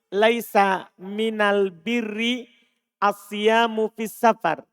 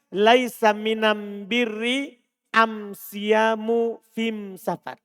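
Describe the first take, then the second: First: It uses the standard Arabic article al. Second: It uses the Himyarite article am.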